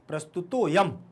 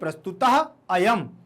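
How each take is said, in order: First: The 'a' sound is merged and barely heard. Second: The 'a' sound is pronounced separately and clearly. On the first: "सामने वाले को समझ में नहीं आना चाहिए कि यहां आ है" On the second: "अयम पढ़ोगे तो सबको समझ में आएगा कि आ का उच्चारण हो रहा है"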